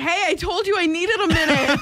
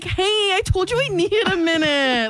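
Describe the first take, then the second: First: It is said in a plain tone. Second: It is said with a little whine.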